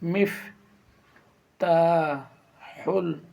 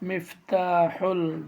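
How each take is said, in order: First: The word is split into separate syllables. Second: The word is said smoothly in one go.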